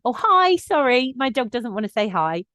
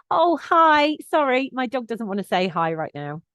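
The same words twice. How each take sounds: First: Louder, higher cheerful call across the path; friendly but firm warning called across to an approaching owner. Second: Bright, higher, friendly-firm call to a stranger; cheerful but no-nonsense, heading off an approaching owner; polite, firm heads-up to a dog walker. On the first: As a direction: sing it out politely, with a smile in the voice. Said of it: "when I call that out". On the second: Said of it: "it's friendly, it's firm ... it's informative". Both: Shown as a demonstration.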